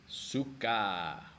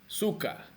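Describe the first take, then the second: First: It is said with an Indonesian pronunciation. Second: It is said with a Russian pronunciation. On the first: It is the Indonesian word meaning to like. The speaker calls it right. "Я говорю suka" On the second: It is the Russian word, not the Indonesian one. The speaker calls it wrong. "I'm not speaking Russian"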